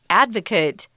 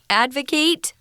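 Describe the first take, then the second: First: It is pronounced as the noun form. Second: It is pronounced as the verb form. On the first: It is the person who supports someone. "noun, the person" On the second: It is the action of supporting someone.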